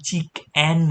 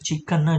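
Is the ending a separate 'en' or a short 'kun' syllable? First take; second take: separate en; short kun. First: The word ends with a separate, full 'en'. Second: The word ends with a short, reduced 'kun'. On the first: The speaker calls it wrong. "આને ચીક એન નહીં વાંચીએ ભલે છેલ્લે ઈ એન આવે છે" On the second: The speaker calls it right. "આને ચિકન જ વંચાય છે"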